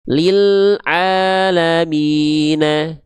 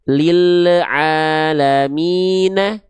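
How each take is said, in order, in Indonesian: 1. L pada lil ditahan halus tanpa memantul. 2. L pada lil memantul dengan gema tambahan. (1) "Yang satu sudah lebih tepat. ... lam sukunnya tidak dilafalkan dengan keadaan yang memantul" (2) "jawaban kedua tadi dia memantul"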